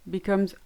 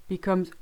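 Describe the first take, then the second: Both takes have the same delivery.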